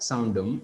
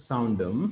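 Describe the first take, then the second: Both takes have the same delivery.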